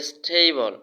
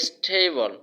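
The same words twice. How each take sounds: Both takes have the same delivery.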